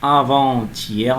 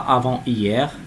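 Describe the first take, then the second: First: Avant is linked to hier with a t sound. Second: Avant is not linked to hier. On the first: The speaker calls it right. "où on trouve aussi la liaison" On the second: The speaker calls it wrong. "on ne dit pas"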